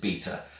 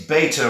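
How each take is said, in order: First: It is said in a British accent. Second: It is said in an American accent. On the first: "in England, we pronounce it beta" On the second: "any Americans watching this will instantly go"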